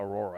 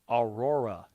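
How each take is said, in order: First: The name is slurred and its sounds run together. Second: The name is said slowly with each sound clear. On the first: The speaker calls it wrong. "It just comes out Aurora. It comes off very jumbled" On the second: The speaker calls it right. "See, I have to really enunciate it"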